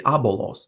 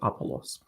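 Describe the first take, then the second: First: The consonant after the first vowel is b. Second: The consonant after the first vowel is p. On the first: This is the form the name takes in that source. "with a bat instead of the phi Greek" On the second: This is the usual form of the name. "not Apollos"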